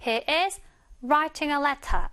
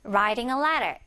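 First: Slow, with clear t's in "writing" and "letter"; crisp British t's in "writing a letter"; British pronunciation. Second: "writing a letter" with both t's flapped; melted American t's in "writing" and "letter"; soft American pronunciation. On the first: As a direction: say "letter" as "let-tah" and sound the t in "writing". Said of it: "영국식으로는". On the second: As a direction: run "writing a letter" smoothly, like "rairing a lerer". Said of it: "부드럽게 미국식으로 발음을 한다면". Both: Shown as a demonstration.

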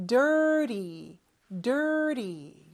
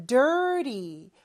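First: Dirty with a flapped T, like dirry. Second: Dirty with the T flapped like a light r; dirty, T softened to a flap; soft T in dirty. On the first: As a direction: tap the T in dirty lightly. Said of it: "이렇게 발음하면 돼요". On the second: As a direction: say dirty with the tongue tapping the palate. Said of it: "T 발음을 좀 약하게". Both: Shown as a demonstration.

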